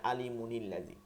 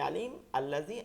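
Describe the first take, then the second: First: The words run together with a linking n sound. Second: The first word stops before the second word begins. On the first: "মিলাই পড়লে" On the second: "আলিম থামলে"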